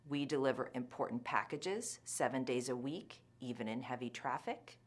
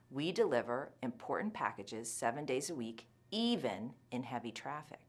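First: No word is strongly stressed. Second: The word 'even' is strongly stressed. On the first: "The first time, I will not use much word stress" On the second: "The second time, I'll put a lot of stress on the intensifier"

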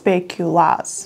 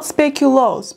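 First: The last syllable has an 'aa' vowel. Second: The last syllable has an 'oo' vowel. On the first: This is the Dutch form of the word. The speaker calls it right. "In the Netherlands, we pronounce it as speculaas" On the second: This is the Belgian form of the word. The speaker calls it wrong. "not speculoos, because it's Belgium"

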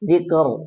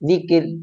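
First: The r is pronounced heavy and full. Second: The r is pronounced light and thin. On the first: The speaker calls it wrong. "ദിക്കർ എന്നല്ല അവിടെ ഉച്ചരിക്കേണ്ടത്" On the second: The speaker calls it right. "ദിക്ർ എന്നാണ് അതിനെ ഉച്ചരിക്കേണ്ടത്"

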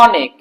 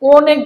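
First: The first vowel is open, lips spread. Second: The first vowel is rounded like o. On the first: The speaker calls it right. "অর্থাৎ এটা প্রসারিত হয়।" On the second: The speaker calls it wrong. "এটা অনেক বলি না"

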